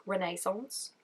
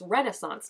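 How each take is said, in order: First: "Renaissance" with the middle syllable stressed as NAY; imitating his "Renaissance", second syllable drawn into "nay"; imitated Australian pronunciation. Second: Said in the usual way. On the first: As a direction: say "Renaissance" as re-NAY-sonce, questioning. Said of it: "he's like, "Renaissance?". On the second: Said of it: "The way they say Renaissance".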